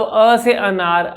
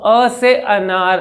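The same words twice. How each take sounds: First: Slow demo. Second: Calm normal-speed demo. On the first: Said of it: "अगर कोई अटकने हकलाने वाले को दिक्कत है". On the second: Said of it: "कितने आराम से बोल रहा हूँ, मेरी नॉर्मल स्पीड है". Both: Shown as a demonstration.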